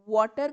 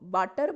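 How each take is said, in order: First: It starts with a rounded-lip w sound. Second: It starts with a teeth-on-lip v sound. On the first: The speaker calls it right. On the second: The speaker calls it wrong.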